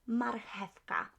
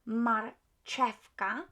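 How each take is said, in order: First: The ch is said as an h sound. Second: The ch is not said as an h sound. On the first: The speaker calls it right. "C H as H in Polish, so marchewka" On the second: The speaker calls it wrong. "English speakers uh, tend to pronounce it uh, pronounce it as marchewka. Mm-mm"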